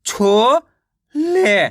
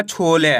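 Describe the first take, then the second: First: छोले split as छो, pause, ले; छोले slowly sounded out; syllable by syllable. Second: Said in the usual way. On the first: Shown as a demonstration. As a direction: stretch छो upward, then a separate ले. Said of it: "एक अक्षर का उच्चारण करके". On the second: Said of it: "मिलके बन जाएगा".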